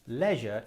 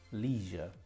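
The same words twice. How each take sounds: First: It is said in a British accent. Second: It is said in an American accent. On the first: "is the British pronunciation" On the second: "how do the Americans say leisure?"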